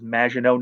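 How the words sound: The name is said with a French pronunciation. The speaker calls it right. "it is Maginot ... You have to say it all Frenchy"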